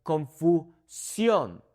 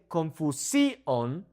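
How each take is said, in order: First: Confusión slowly as kon-foo, SYON; "confusión" with the last syllable stressed. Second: Confusión stressed on SI, kon-foo-SEE-on; wrong-stressed "confusión", SEE punched. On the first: Teacher follows the accent mark, confusión stressed on SYON. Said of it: "I'm saying confusión". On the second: Teacher shows the stress to avoid, confusión as kon-foo-SEE-on. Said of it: "instead of saying confusión". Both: Shown as a demonstration.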